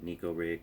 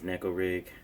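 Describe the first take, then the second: First: The first vowel sounds like 'knee'. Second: The first vowel sounds like 'neck'. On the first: This is how many people say it. The speaker calls it wrong. "many pronounce it" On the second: This is the original pronunciation. The speaker calls it right. "the correct pronunciation is"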